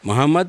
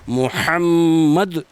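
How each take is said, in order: First: The h sound is a plain, light h. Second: The h sound is a deep, throaty h. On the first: The speaker calls it wrong. "मोहम्मद अलग है" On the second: The speaker calls it right. "अदा करना सही है"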